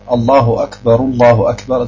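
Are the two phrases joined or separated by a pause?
joined. The two phrases run together without a pause. The speaker calls it right. "sagt man zusammenhängend"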